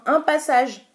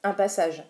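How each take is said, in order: First: Higher, louder excited cry; excited shout. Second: Said in the usual way. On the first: Real, not acted. Beauty vlogger to viewers after one swipe, shouting with excitement. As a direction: shout it out in delight. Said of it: "Je sais pas pourquoi je crie, je hurle". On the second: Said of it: "Je sais pas pourquoi je crie".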